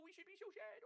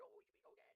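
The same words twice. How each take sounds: First: Higher, sarcastic fake-sad whine; mock pity pitched high; mock sadness. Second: Whispered fake sorrow; hushed sarcastic pity; mock whisper. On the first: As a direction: pretend to be sad, plainly faking it. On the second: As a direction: breathe it out as pretend sympathy.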